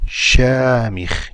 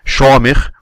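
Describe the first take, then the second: First: The first vowel is said with unrounded lips. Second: The first vowel is said with rounded lips. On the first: The speaker calls it right. "we say shamikh" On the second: The speaker calls it wrong. "we don't say shamikh"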